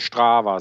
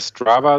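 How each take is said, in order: First: It is said the Rhineland way. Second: It is said the English way.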